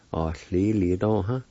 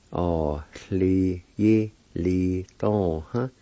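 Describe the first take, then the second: First: Said in the usual way. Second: "Ah, li, yi, li, dong, huh" in separated syllables. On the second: Shown as a demonstration. Teacher repeating the word for pending, syllable by syllable. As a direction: sound out each part deliberately. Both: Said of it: "It's pronounced like this".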